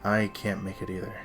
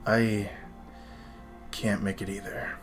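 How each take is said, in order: First: It is said in a plain, non-whispery voice. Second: It is said in a whispery, angsty voice.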